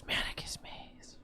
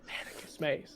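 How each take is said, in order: First: Breathy unvoiced whisper of the name. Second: Whispered echo, much softer; hushed echo. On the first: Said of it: "a whisper on the breath of Manicus". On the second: Acted. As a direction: repeat the name in a hushed whisper. Player repeats the whispered name.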